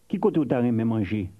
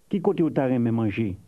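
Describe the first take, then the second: No difference in how they are said.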